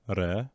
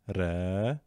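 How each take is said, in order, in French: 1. La voyelle après le r est courte. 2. La voyelle après le r est longue. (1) "Voici la lettre Ra avec ses voyelles courtes" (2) "Avec ses voyelles longues"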